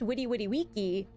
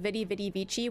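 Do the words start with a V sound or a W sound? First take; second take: W sound; V sound. First: The words start with a W sound. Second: The words start with a V sound. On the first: "It was probably pronounced" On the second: "that famous like"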